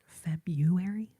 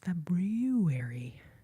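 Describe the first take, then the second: First: The first R is dropped from the word. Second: The first R is clearly pronounced in the word. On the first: The speaker calls it wrong. "I used to always call it February" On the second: The speaker calls it right. "but it's February"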